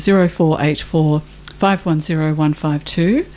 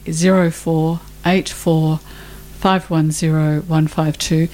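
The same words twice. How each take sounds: First: The number is said at normal speed. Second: The number is said slowly.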